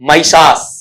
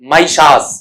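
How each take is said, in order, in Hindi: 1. पहला अक्षर 'my' जैसा सुनाई देता है। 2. पहला अक्षर 'my' जैसा सुनाई देता है।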